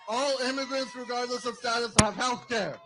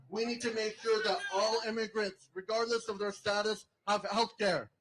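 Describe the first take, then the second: First: Louder insistent repeat of the demand; emphatic louder repeat. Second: Said in the usual way. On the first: Real, not acted. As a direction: hammer the demand home to the crowd. Repeats demand with more force.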